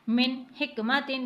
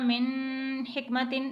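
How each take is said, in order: First: The n is pronounced clearly and fully. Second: The n is hidden with a nasal sound. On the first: The speaker calls it right. "तो हमें किस तरह से पढ़ना है" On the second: The speaker calls it wrong. "इख्फा का कायदा यहाँ पर नहीं लगाएंगे"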